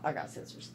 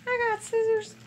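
First: Softer muttered aside to herself. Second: High, louder sing-song I got scissors; sing-song announcement. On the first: Remembering she has scissors, muttering softly to herself. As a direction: mutter it quietly to yourself. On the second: Showing viewers her scissors, in a high, louder playful sing-song. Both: Real, not acted. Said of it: "hold that thought".

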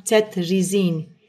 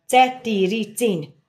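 First: Cetrizin said slowly and low as cet-ri-zin, three syllables; correct pronunciation. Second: Cetiricin said slowly, syllable by syllable as ce-ti-ri-cin; trying out the name. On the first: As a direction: show how cetrizin is really said: slow, low cet-ri-zin. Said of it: "úgy ejtik". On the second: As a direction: sound out Cetiricin slowly, with an extra ti in the middle. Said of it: "Cet-, cetiricin". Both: Shown as a demonstration.

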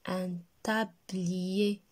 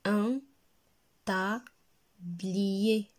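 First: "Un tablier" very slow, with only small breaks: un ta-bliyé; slow joined-up reading. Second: "Un tablier" broken as un, ta, bliyé with clear pauses; syllable by syllable. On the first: Teacher models the word for repeating, "tablier" slowly joined. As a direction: say "Un tablier" as one slow, stretched phrase. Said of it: "Répétez". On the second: Teacher reads words for children, "tablier" split into syllables. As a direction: stop after "Un" and after ta, then stretch blier. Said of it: "deux syllabes". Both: Shown as a demonstration.

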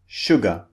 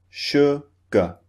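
First: Said in the usual way. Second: "sugar" split into two syllables with a gap; two separate beats. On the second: Shown as a demonstration. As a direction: break "sugar" into sug, then ar, a beat each. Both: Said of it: "This means two beats".

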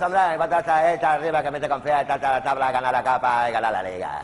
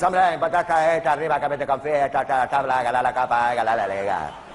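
First: Loud mumbling footballer voice, a bit clearer; dim footballer. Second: Loud, garbled mumbling footballer voice; dim footballer. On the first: Footballer answering the quiz with the same clichés, loud and mumbled. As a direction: rattle off the clichés proudly. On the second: Comedian mocking a footballer's post-match interview, mumbling loudly. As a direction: slur the clichés like a dazed player. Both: Acted.

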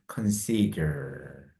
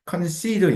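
First: Consider stretched very slowly, softer and lower, stress on -si-; very slow stress demo. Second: Consider said high and lively; emphatic word. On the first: Teacher slowly showing stress in consider. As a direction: drag consider out, leaning on the second syllable. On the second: Teacher introducing consider to students. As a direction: announce consider brightly. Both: Shown as a demonstration. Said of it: "강세가 두 번째 있거든요".

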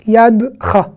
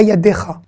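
First: YADCHA with no vowel between d and cha; silent e. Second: YADECHA with a full "é" between d and cha; wrong extra vowel. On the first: Teacher giving the correct reading, with the e silent. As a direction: say "Yadcha" as yad plus cha, e kept mute. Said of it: "Là, c'est un e muet". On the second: Teacher showing learners what not to say, middle vowel sounded. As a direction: voice the middle e of "yadecha" as its own syllable. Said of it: "Et pas yadecha". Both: Shown as a demonstration.

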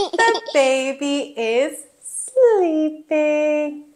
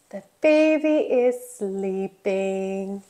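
First: Said in the usual way. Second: Low, soft and gentle; hushed. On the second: Pretend. Telling children a baby is sleeping, hushed.

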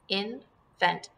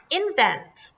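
First: "Invent" broken as IN, pause, VENT; syllables apart. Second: Said in the usual way. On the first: Shown as a demonstration. Teacher shows pupils the pieces, "Invent" split in two. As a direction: say "Invent" with a clear gap after IN. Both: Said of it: "put them together".

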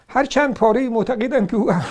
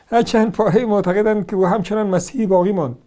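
First: Said in the usual way. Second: Laughing through the quoted claim; reading it out with a laugh. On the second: Shown as a demonstration. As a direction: read the line while laughing at it.

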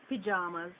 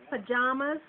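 First: "pajamas" starting with pee; Jamaican pronunciation. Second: Said in the usual way. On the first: Shown as a demonstration. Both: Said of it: "Jamaicans would say pajamas".

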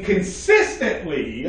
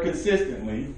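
First: Consistently drawn out slowly with heavy emphasis; stress on consistently. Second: Said in the usual way. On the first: Real, not acted. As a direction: stretch and punch the word consistently. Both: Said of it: "I put emphasis on that word consistently".

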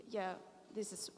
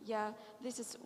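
No difference in how they are said.

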